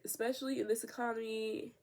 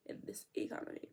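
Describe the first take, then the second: First: Said in the usual way. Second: Whispered repeat, much softer; whispered aside. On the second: Real, not acted.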